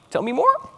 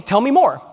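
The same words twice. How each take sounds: First: "Tell me more" with the pitch rising high on "more", like a question; upward inflection. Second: Said in the usual way. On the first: Shown as a demonstration. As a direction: lift "more" up at the end to invite an answer. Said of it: "in that upward inflection". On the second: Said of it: "that doesn't look like a question".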